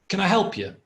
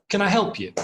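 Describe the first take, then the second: The two takes are said the same way.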